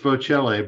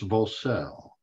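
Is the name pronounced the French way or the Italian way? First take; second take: Italian; French. First: The name is said with Italian pronunciation. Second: The name is said with French pronunciation. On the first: This is how it is said in Italy. "If I'm in Italy, it's Vocelle" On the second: This is the name's original French form. "but it's a French name, so it's Vocelle"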